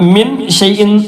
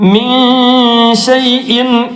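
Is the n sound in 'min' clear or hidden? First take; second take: clear; hidden. First: The n is pronounced fully and clearly. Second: The n is hidden, halfway between clear and dropped. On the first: The speaker calls it wrong. "മിൻ എന്ന് പറഞ്ഞാൽ നൂന് വെളിവായി" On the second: The speaker calls it right. "വെളിവാക്കുകയും ഒഴിവാക്കുകയും ചെയ്യാതെ രണ്ടിന്റെ ഇടയിലായിട്ട്"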